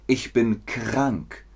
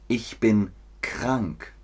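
The two takes are said the same way.

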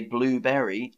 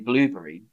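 First: The 'berry' part is said fully and clearly. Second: The 'berry' part is shortened and run together. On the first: The speaker calls it wrong. "I don't say blueberry" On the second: The speaker calls it right. "I say blueberry"

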